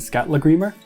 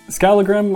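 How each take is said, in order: First: Icelandic, with a TL sound and a final r. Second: Anglicized, with a plain L and no final r.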